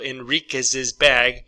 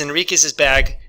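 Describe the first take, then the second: First: The phrase is said slowly and carefully. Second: The phrase is said quickly and smoothly.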